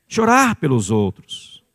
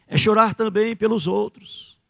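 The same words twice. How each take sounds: First: Chorar drawn out and leaned on, Chorar pelos outros said slower; slow emphatic repeat. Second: Said in the usual way. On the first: Shown as a demonstration. Preacher repeats Chorar pelos outros to the church, slowly and firmly. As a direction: weigh down on Chorar, slower and firmer.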